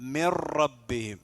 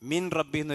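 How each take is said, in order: First: The n is merged into the following r. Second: The n is pronounced clearly before the r. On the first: The speaker calls it right. "എന്നാണ് ഓതേണ്ടത്" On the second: The speaker calls it wrong. "ഒരിക്കലും ഓതാൻ പാടില്ല"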